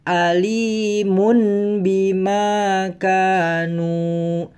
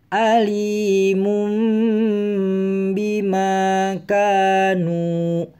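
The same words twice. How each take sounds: First: The ending sounds as n before the b. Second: The ending sounds as m before the b. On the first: The speaker calls it wrong. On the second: The speaker calls it right.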